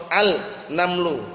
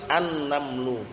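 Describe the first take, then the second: First: "al-namlu" with the l sounded apart; "al-namlu", article left unmerged; wrong clear al. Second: "an-namlu" with a long double n; "an-namlu" joined up, no l; silent lam. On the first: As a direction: separate "al" from "namlu". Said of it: "itu keliru kalau". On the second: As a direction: merge the article into the n of "an-namlu". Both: Shown as a demonstration.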